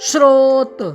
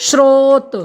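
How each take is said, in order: The two takes are said the same way.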